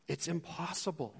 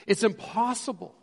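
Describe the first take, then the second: First: Quiet, resigned "impossible"; muted resignation; soft. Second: "impossible" higher and firmer; firm declaration; emphatic. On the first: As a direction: let it fall softly. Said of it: "repeat softly". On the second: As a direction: push it out with weight. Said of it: "repeat louder". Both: Shown as a demonstration.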